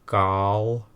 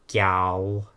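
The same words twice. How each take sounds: First: The first consonant is made further back. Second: The first consonant is made further forward.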